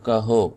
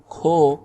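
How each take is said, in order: First: کہو said as ka-ho, two syllables, h voiced between; کہو pronounced ka-ho with audible h; kaho with spoken h. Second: کھو said as one syllable kho, aspirated k. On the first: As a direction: say کہو with a clear breathy h before o. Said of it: "یہ والی ہا پڑھی جا رہی ہے". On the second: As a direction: say کھو with a puff of air on the k, no separate h. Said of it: "یہ والی ہا پڑھی نہیں جا رہی". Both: Shown as a demonstration.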